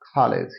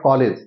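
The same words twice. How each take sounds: First: The first consonant has a puff of air. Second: The first consonant has no puff of air. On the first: The speaker calls it right. "तो ये ख का sound" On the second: The speaker calls it wrong. "Not कॉलेज"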